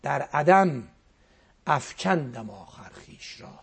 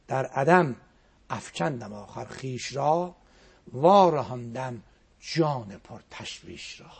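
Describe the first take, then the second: First: Said in the usual way. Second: Slow, drawn-out recital of the verse; slow poetic chanting; slow poem recitation. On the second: Acted. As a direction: savour each word of the poem. Poem recited a second time.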